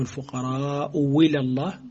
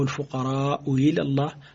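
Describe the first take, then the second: First: The second hamza is replaced by a clear w. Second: The second hamza is softened toward a y. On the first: "على وجه الإبدال" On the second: "على وجه التسهيل"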